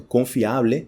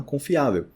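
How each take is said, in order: First: "confiable" ending in Spanish A-ble; Spanish pronunciation. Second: "confiável" ending in Á-veu; final l of "confiável" as a w; Portuguese pronunciation. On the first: Teacher gives the Spanish example, Spanish pronunciation. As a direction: sound out "confiable" with a full final e. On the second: Teacher gives the Portuguese equivalent, Portuguese pronunciation. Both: Shown as a demonstration. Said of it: "se torna confiável".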